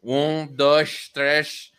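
It is counted with a European Portuguese accent.

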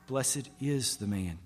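The word 'is' is stressed.

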